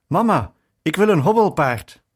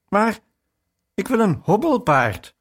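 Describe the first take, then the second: First: Louder and higher, gasping it out after running; breathless child's cry. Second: Higher and a little louder, a touch of a whining sob; mock tearful cry. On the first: Retold or imitated. Boy bursting in to ask mother for a rocking horse, breathless and loud. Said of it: "riep buiten adem". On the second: Boy pleading with mother after she refuses, mildly tearful. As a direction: plead like a small child about to cry. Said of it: "riep ik huilend uit".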